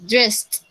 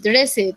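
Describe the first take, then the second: First: The ending is pronounced as a short T sound. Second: The ending is pronounced Spanish-style, not as T. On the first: The speaker calls it right. "suena así, dressed, como una T al final" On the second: The speaker calls it wrong. "no se dice así como en el español dressed"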